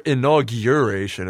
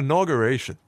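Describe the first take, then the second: First: The middle sounds like the word 'urine'. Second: The middle sounds like 'augur', with no 'urine' sound.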